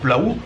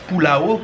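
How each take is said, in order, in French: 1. Le mot est prononcé vite et de façon condensée. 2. Le mot est prononcé à un rythme lent et soigné.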